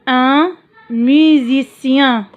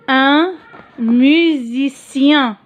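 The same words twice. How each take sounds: First: Musicien stressed, drawn out; stressed model word. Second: Musicien said slowly, syllable by syllable; dictée lente de musicien; slow model word. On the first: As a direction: lean on musicien slowly. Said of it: "repeat with stress". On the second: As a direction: stretch out musicien for the class. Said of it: "teacher models word". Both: Shown as a demonstration.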